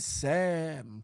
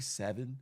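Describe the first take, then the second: First: It is said in a local DC accent. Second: It is said in a standard, non-DC accent. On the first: The speaker calls it right. "We say seven" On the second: The speaker calls it wrong. "We don't say seven"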